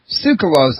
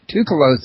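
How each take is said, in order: First: The name begins with a 'ts' sound. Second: The name begins with a plain 't' sound. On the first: The speaker calls it right. "I just heard you uh, pronounce his last name Tsoukalos" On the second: The speaker calls it wrong. "I always pronounced it Toukalos. Have I been getting it wrong?"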